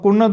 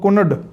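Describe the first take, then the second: First: The final d is dental. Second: The final d is retroflex. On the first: "ਆਪਾਂ ਕੁਨਦ" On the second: "ਦੱਦੇ ਦੀ ਜਗ੍ਹਾ 'ਤੇ ਡੱਡੇ ਦੀ ਵਰਤੋਂ"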